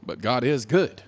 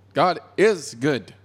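First: Said in the usual way. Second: Slow, with "is" stretched and hit hard; emphatic conviction, drawn-out "is"; stress on IS. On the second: Real, not acted. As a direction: lean firmly on "is". Repeats it slowly for conviction.

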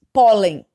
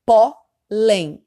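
First: "Pólen" said as one whole word, loud on pó; stress on first syllable. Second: "pólen" split into a loud pó, pause, then len; syllable-by-syllable stress. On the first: Teacher giving Sofia a new example, "Pólen" loudly stressed on pó. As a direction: hit the start of "Pólen" hard, without splitting it. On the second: Teacher counting syllables for Sofia, "pólen" split with loud stress on pó. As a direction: break "pólen" in two, punching pó. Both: Shown as a demonstration. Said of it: "a sílaba tônica tá no pó".

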